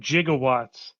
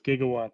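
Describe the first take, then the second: First: The word begins with a soft j sound. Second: The word begins with a hard g sound. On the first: The speaker calls it wrong. "he did say it incorrectly. He said" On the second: The speaker calls it right. "we all know that it's gigawatts"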